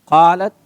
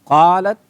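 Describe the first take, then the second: No difference in how they are said.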